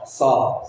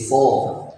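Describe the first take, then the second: First: The sound is light, with too little heaviness. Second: The sound is thick and heavy. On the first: "kalau misalnya dikurangi ya paling so ... itu terlalu terlalu kurang" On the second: "kalau yang tebal ya tadi so"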